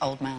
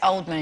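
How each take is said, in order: First: The stress falls on the second part, Man. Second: The stress falls on the first part, Old. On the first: The speaker calls it right. "and she likes to correct them. It's pronounced Old Man" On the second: The speaker calls it wrong. "people um, pronounce it Oldman"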